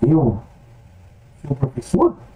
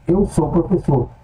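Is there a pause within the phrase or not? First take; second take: pause; no pause. First: The words are separated by a break. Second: The words are joined without a break.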